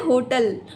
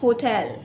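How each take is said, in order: First: It is said with an Indian accent. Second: It is said with a British accent.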